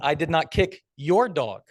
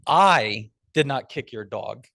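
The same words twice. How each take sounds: First: The stress is on "your". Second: The stress is on "I".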